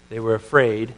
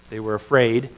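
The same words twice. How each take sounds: The two takes are said the same way.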